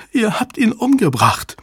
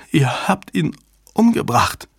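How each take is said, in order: First: Very high, anguished cry; distraught accusation. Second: Higher, halting, stunned voice; stammering shock. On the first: Susan accuses them of killing her lover, distraught. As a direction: cry out the accusation in one run. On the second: Susan sees her lover dead on screen, stammering. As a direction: falter out the accusation in shock. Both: A narrator's reading. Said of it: "stammelte sie".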